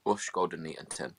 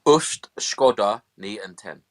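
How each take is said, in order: First: Softer second take of fake Dutch; quiet murmured fake Dutch; mock Dutch. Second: Slow, deliberate fake Dutch, loud; mock Dutch. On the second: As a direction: sound out nonsense Dutch word by word. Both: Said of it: "Go on, speak some Dutch".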